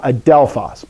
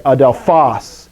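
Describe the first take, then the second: First: Adelphos with DEL stressed and a weak ending; wrong stress, second syllable. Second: Adelphos with the final syllable PHOS stressed; stress on last syllable. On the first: Teacher showing students what not to say, adelphos stressed on DEL. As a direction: hit the middle: a-DEL-phos in adelphos. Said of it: "not adelphos". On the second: Teacher modelling the correct accent for students, adelphos stressed on the last syllable. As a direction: land the weight on the end: a-del-PHOS in adelphos. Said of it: "must train yourself to say adelphos". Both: Shown as a demonstration.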